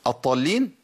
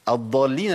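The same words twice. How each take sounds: First: الضالين with the ض said as a ظ; الضالين pronounced like الظالين; dad turned to za error. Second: الضالين with a true ض, not a ظ; الضالين, the ض kept clear and distinct; correct Arabic dad. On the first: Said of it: "اللي هم الناظرين". (الضاد في الضالين منطوقة ظاء) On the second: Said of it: "الذين ضلوا". (الضاد في الضالين صحيحة) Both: Shown as a demonstration.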